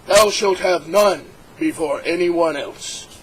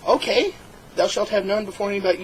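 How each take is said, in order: First: Slow, solemn pronouncement of "Thou shalt have none before anyone else"; God's commandment. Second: Said in the usual way. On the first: Acted. God dictating the first commandment, slow and solemn. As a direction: intone "Thou shalt" slowly like scripture. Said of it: "And he said".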